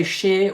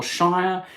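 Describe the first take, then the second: First: "Shire" said like "sheer". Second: "Shire" said like "shy-er". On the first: Asking viewers how they say it, "Shire" as "sheer". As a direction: say "Shire" to rhyme with "beer". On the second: Asking viewers how they say it, "Shire" as "shy-er". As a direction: say "Shire" to rhyme with "fire". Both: Shown as a demonstration. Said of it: "Do you say Shire or Shire?".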